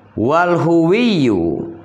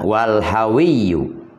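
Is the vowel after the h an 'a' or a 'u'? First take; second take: u; a. First: The vowel after the h is 'u'. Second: The vowel after the h is 'a'. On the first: "bidhammil ha'i" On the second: "wa fathiha"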